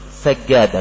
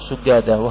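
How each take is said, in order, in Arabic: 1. أول حركة هي 'a'. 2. أول حركة هي 'u'. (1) "الصحيح سجادة بفتح السين" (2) "أنا أقول سجادة وهو لحن"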